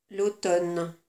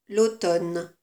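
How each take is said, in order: The two takes are said the same way.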